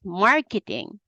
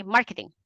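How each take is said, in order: First: "marketing" with MAR stretched long, the rest short; one longer syllable. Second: "marketing" quick, every syllable equally short; non-native even syllables. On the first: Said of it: "one syllable that's longer". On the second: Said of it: "normally we non-English speakers say". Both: Shown as a demonstration.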